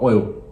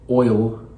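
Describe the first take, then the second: First: The final L sound is almost dropped. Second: The final L sound is clearly pronounced. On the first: "we actually kind of drop the L almost" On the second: "We don't say oil"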